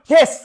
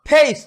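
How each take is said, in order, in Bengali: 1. স্বরধ্বনিটি একটি ছোট, সাধারণ e ধ্বনি। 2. স্বরধ্বনিটি e থেকে i-তে গড়িয়ে যায়। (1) "নট" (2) "আমাদের মুখটাকে কি বলি"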